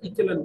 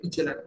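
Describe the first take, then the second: First: The second consonant is a hard k sound. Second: The second consonant is a ch sound. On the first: This is the foreign way of saying it. "Foreigner যদি pronunciation দেখো, সেটাকে ইকেলান বলা হয়, মানে ক কয়ের pronunciation" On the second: This is the Indian way of saying it. "আমাদের Indian pronunciation দেখো, তো এটাকে ইচেলান বলে"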